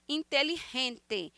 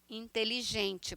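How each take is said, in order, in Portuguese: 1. O g é um som áspero e gutural, como o R. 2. O g é um som suave, não gutural. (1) "com esse G puxado como se fosse um R" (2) "para nós"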